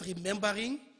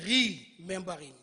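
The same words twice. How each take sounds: First: The word flows with the first syllable unstressed. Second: The first syllable 're' is stressed and set apart. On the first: Recalling the past. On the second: Putting back together what was dismembered.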